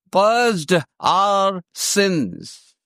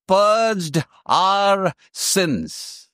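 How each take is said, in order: First: "Purged" repeated slowly and heavily; repeated for weight. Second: Purged our sins, slow with weight on purged; stress on purged. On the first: Preacher repeating the word for the church, slow and weighty. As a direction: drag out "Purged" to let it sink in. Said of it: "explaining this word purged". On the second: Preacher stressing the key word to the congregation, slow. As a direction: lean hard on "purged", drawn out. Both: Shown as a demonstration.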